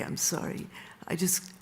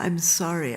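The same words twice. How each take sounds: First: Hushed, breathy sorry after the shout; whispered apology. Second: Said in the usual way. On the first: Retold or imitated. Don, embarrassed before the restaurant, whispers his apology. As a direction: whisper it, ashamed of the scene.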